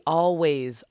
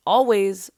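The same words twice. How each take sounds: First: Said in the usual way. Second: Always punched louder and higher; stress on always. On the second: Shown as a demonstration. To podcast listeners, stressing always louder and higher. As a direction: hit the word always hard, louder and higher. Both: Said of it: "I'm actually gonna emphasize the word always".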